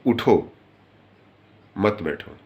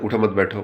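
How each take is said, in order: First: The break comes after उठो. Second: The break comes after मत.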